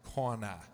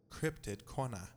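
First: Corner as Boston cahnah, no r; Boston accent. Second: Cryptid Corner with a clear r in Corner; English pronunciation. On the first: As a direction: drop the r, Boston style. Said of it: "That's more like Boston". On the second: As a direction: say Corner as kor-ner, r sounded. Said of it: "the way you say Cryptid Corner in English". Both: Shown as a demonstration.

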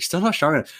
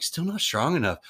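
First: "not" pushed higher with a falling end; stress on not. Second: Said in the usual way. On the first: Retold or imitated. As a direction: lean hard on "not" in "Still not strong enough". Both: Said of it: "and I was like".

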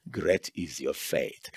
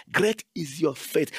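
First: Tender praise. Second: Said in the usual way. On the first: Retold or imitated. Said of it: "Oh woman".

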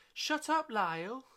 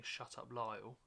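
First: Very high, loud squeal on both words; high squeaky. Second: Said in the usual way. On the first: Shown as a demonstration. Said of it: "can you say it like this?". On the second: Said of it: "when it comes up to your line saying".

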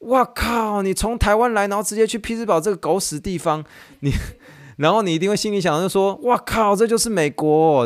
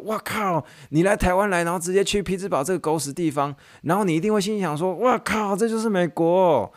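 First: High, mock-crude wife voice; hammed-up disbelief, swearing. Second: High, mock-crude wife voice; swearing wife. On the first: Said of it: "马上回一句大脏话". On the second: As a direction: repeat her swearing line, hammed up. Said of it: "她那个中文意思就是这样". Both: (太太夸张地骂脏话)

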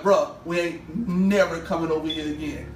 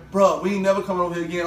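First: Firm, spaced-out echo of the friend; deliberate retold vow. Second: Rattled off fast as the homeboy; brisk imitation of a friend; quick retold vow. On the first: Repeats homeboy's vow more deliberately. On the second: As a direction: say it in one quick run. Homeboy's vow, then repeated back.

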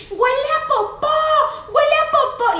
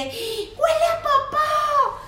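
First: Put-on high, loud kid's shout; child shouting. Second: Put-on very high, slow, stretched kid's wail; drawn-out child yell. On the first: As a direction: yell it to the whole restaurant. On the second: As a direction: drag it out like a toddler on the floor. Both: Niece shouting in restaurant.

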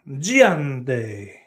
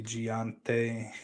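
First: GIANTE stretched in a put-on Spanish accent; Spanish-style coffee name. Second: Said in the usual way. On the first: Streamer naming a special coffee, mock Spanish accent. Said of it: "It sounds like a special coffee". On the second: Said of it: "Giante with a Spanish accent".

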